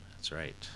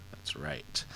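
First: Said in the usual way. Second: A breathy stage whisper, higher. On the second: Shown as a demonstration. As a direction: repeat it as a secretive whisper.

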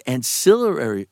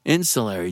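First: "ancillary" with stress on SIL and a stumbling extra syllable; mispronounced word. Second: "ancillary" as IN-suh-lairy, stress first; corrected pronunciation. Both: Real, not acted.

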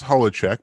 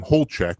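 First: Holacek in three syllables, HOLL-a-check; original family pronunciation. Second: Holchek in two syllables, HOLE-check; Americanized pronunciation. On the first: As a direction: say Holacek with an open first vowel. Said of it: "what is the correct pronunciation of this?". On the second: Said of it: "it became Holchek because that's just how it looked". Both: Shown as a demonstration.

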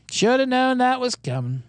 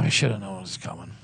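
First: Mock lament. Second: Low, deflated regret; dejected. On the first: Host repeats his regret over losses, high mock lament. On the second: Real, not acted. Host rues the losses he should have seen, low and dejected. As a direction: sigh it out low, to yourself. Lament over losses, first take.

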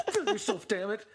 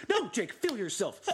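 First: Much higher, louder cry of feel yourself; hammed-up fan yelling at Jake; shouted urging. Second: Eager, raised voice; half-joking pep talk to a player; urging Jake on. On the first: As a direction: yell it like a frustrated fan. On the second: Retold or imitated. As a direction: push him to let loose. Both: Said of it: "and it's like".

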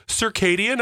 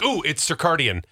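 First: High "Circadian" as sur-KAY-dian; contestant's circadian. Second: "circadian" with extra R, sur-CAR-dian; mistaken circadian. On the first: Host imitating Jeopardy contestant, "Circadian" as high sur-KAY-dian. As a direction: raise pitch, "Circadian" with KAY. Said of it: "And he goes". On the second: Host retelling Jeopardy guess, "circadian" as sur-CAR-dian. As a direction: say "circadian" as sir-CARD-ian. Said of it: "I've been saying that wrong". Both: Retold or imitated.

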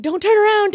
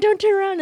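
First: Much higher, louder frantic plea; panicked warning. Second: Panicked warning repeated. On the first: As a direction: yell it at the others as they run, terrified. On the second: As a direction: still much higher and louder, frantic. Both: Retold or imitated. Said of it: "I'm like".

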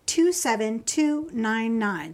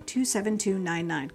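First: Slow number read. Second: Said in the usual way. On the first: Real, not acted. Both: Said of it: "here's the number".

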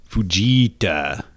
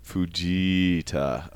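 First: Fujita, slow with a falling end; Fujita said slowly. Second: Fujita stretched very slowly, rising at the end; drawn-out Fujita. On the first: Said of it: "his name is". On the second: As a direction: draw out Fujita like a question. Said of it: "With just the pipes". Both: Shown as a demonstration.

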